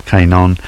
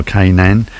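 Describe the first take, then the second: First: Kanon said KAY-non, with an "on" ending; alternative pronunciation. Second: Kanan said KAY-nan, with a clear second vowel; uncertain pronunciation. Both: Shown as a demonstration. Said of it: "Sorry about the pronunciation".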